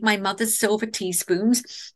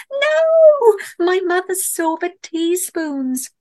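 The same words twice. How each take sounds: First: Said in the usual way. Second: High, drawn-out wail of dismay; horrified cry. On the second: A narrator's reading. Camper watching the bear walk off with her teaspoons, horrified cry. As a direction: cry out loud and high, stretching the words. Narrator cries out at theft.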